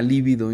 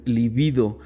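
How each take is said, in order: First: "lívido" with the stress on the first syllable, LÍ-vi-do; wrong pronunciation. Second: "libido" with the stress on the second syllable, li-BI-do; correct pronunciation. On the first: To the group, showing the wrong word: "lívido" stressed on LÍ. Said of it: "le llama lívido y no es lívido". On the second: To the group, correcting the mistake: "libido" stressed on BI. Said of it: "no es lívido, es libido". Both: Shown as a demonstration.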